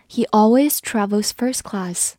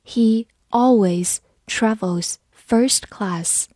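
First: Said in the usual way. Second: Slow, careful reading for learners. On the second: Shown as a demonstration. Teacher reads slowly for the class. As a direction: read it slowly, word by word. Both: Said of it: "好，慢读一遍。".

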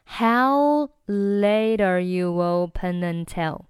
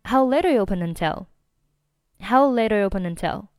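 First: "How late are you open until" slowly drawn out; slow-motion model of connected speech; slow linked demo. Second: "How late are you open until" run together quickly; brisk connected speech at natural speed; fast linked demo. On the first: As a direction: stretch each syllable, keeping the words linked. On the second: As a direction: rattle it off as one linked phrase. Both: Shown as a demonstration. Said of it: "整句话就变成了".

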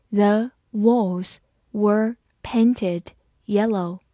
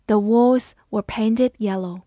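First: Very slow, one word at a time; slow read-aloud. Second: Said in the usual way. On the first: Shown as a demonstration. Teacher modelling the painted-walls sentence, slowly. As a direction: read it slowly with a gap after each word. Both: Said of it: "好，慢慢来读".

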